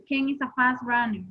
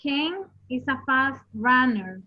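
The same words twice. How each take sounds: First: Said in the usual way. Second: Slow, with fast stressed; slow example reading. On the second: Shown as a demonstration. Teacher rereads the sentence for her class, slowly stressing fast. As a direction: read it out clearly, leaning on fast.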